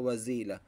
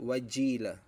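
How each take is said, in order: First: The middle consonant is a z sound. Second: The middle consonant is a j sound. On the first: The speaker calls it wrong. "May nagbibigkas na wazila" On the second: The speaker calls it right. "ang tama po ay wajila"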